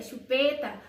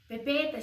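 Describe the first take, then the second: First: Said in the usual way. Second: Put-on "pepeta" said as a toddler's version of "chupeta"; baby-talk pepeta. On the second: Parent echoing baby's "pepeta", baby pronunciation.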